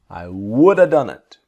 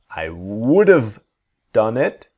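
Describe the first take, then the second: First: 'Have' is reduced to a short 'uh' sound. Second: 'Have' is said with a clear v sound. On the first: "this is not correct in writing, but we use it all the time in speaking" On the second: "So v sound"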